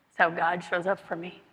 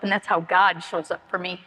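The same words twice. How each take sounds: First: Repeated quietly, sinking into it; soft echo. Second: Said in the usual way. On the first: Real, not acted. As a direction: let the line fall away softly, as a quiet afterthought. Soft echo of the line before.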